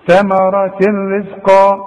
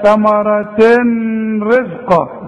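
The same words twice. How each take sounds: First: Slow ثمرة رزقا with full merging and no nasal hum; correct recitation. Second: ثمرة رزقا said with a light, thin راء; wrong recitation. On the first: Teacher demonstrating full idgham, slow and clear. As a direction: glide ثمرة straight into رزقا. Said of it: "شوف". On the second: Teacher warning the student of a mistake, mock wrong reading. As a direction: read it the wrong way. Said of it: "اوعى تقول لي بقى". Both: Shown as a demonstration.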